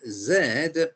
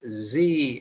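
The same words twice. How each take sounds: First: It is said the British way, as zed. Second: It is said the American way, as zee.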